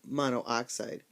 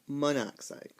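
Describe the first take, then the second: First: Both o sounds are said, mono then oxide. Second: One o sound is dropped, blending into monoxide. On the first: The speaker calls it wrong. "isn't monoxide" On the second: The speaker calls it right. "the prefixes might drop a vowel"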